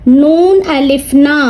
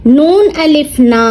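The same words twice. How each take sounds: The two takes are said the same way.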